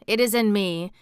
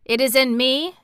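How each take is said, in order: First: Chanted, echo the line more quietly; soft echo chant. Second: Chanted, It is in me called out higher and louder; chanted, ring out the first It is in me; chanted call, raised. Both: Acted. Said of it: "Then I will chant".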